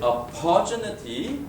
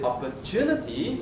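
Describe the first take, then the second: First: The stress is on the second syllable. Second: The stress is on the third syllable. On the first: The speaker calls it wrong. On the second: The speaker calls it right.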